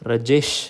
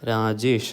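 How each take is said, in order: First: The stress is on the second syllable. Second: Both syllables get equal stress. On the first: "first സിലബിളിന് തീരെ importance കൊടുക്കാതെ second സിലബിളിന് കൂടുതൽ importance കൊടുത്ത്" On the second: "വി give equal importance to ദ ഹോ ദി entire word"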